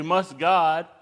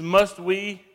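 First: "God" stressed as the contrast. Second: "Must" hit hard, loud and high; stress on must. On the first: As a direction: lean on "God". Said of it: "He doesn't say". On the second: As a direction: land on "Must" with force. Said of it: "Notice that word". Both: Shown as a demonstration.

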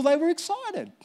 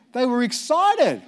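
First: "were" lifted much higher and pressed against "weren't"; higher excited. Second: They were excited, with a slow fall on "excited"; excited stressed. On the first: Preacher answers "weren't uncomfortable" with a pitched-up "were". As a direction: jump up on "were" in "they were excited". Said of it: "They weren't uncomfortable". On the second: Preacher tells his congregation they were excited, slow falling stress on "excited". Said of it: "Because they were excited". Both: Shown as a demonstration.

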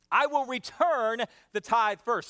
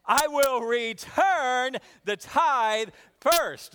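First: Slow, deliberate recital; slow call to repeat. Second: Louder, slower rousing recital; more energy. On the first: Pastor leading the repeat, slow and deliberate. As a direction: lead the congregation slowly. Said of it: "Say that with me". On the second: Pastor urging a livelier repeat, slow and loud. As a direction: push them to say it with gusto. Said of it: "Let's try it again". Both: Shown as a demonstration.

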